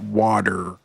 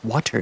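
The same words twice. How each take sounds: First: The word is pronounced in a relaxed, casual way. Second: The word is pronounced with careful, crisp diction. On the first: This is the sloppy everyday way to say it. The speaker calls it wrong. "not water" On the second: This is the proper way to say it. The speaker calls it right. "It's water, Nathan"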